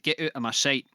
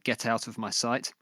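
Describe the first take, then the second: First: It is said in a Glaswegian accent. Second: It is said in a standard English accent.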